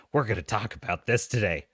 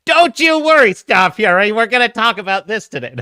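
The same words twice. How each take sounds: First: Low, softer assurance; subdued promise. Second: Loud, high captain's reassurance; rousing promise. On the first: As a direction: drop down and promise it quietly. First, subdued take of the promise. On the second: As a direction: belt out the promise to the crew. Mock-rousing repeat to the viewer. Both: Pretend.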